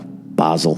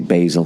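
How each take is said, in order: First: It is said with a British pronunciation. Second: It is said with an American pronunciation. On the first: "they say oregano, basil" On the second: "we say basil"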